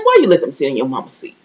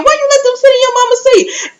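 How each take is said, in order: First: Said in the usual way. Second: Very high-pitched, exclaimed challenge; incredulous outburst. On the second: Real, not acted. Viewer calling out Jazz over her mama's seat, high incredulous outburst. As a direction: blurt it out high, in amused disbelief. Outraged repeat of her question.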